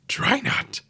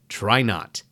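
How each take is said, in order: First: It is said in a put-on character voice. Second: It is said in the speaker's normal voice. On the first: "let me redo that in my Yoda voice" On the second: "as my favorite quote from Yoda goes"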